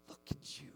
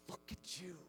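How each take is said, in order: First: A breathy intimate whisper. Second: Softly, much softer, almost breathed; tender admiring hush. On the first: Husband admiring his wife in bed, whispering. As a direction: let it fall to a whisper. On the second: Husband marvelling at his wife, hushed and tender. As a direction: say it like you can't look away. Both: Acted.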